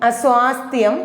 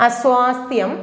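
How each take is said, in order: No difference in how they are said.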